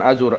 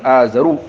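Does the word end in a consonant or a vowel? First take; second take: consonant; vowel. First: The word ends in a consonant sound. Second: The word ends in a short u vowel. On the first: The speaker calls it wrong. "bukan azur" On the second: The speaker calls it right. "jadi dhamma di akhir"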